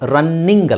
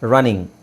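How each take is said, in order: First: The middle n sound is doubled and held long. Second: The middle n sound is single and short. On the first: The speaker calls it wrong. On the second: The speaker calls it right.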